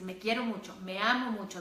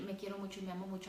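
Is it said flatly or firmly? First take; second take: firmly; flatly. First: It is said firmly, with strong feeling. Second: It is said flatly, without feeling.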